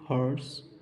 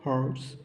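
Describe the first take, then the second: First: "हॉर्स" said without the h, like "aarts"; silent h demo. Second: "हॉर्स" without the h, ending on a questioning rise; silent h, rising. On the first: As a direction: drop the h of "हॉर्स" completely. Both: Shown as a demonstration. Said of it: "ये silent है".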